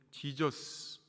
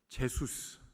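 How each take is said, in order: First: The name is said like 'Jee-juh-seu'. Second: The name is said like 'Je-su-seu'. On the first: It brings Jesus to mind. The speaker calls it right. "이 지저스 하면 예수님이 생각이 나야 된다는 거예요" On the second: It means someone unknown. The speaker calls it wrong. "지저스로 발음을 하지 않고 제수스"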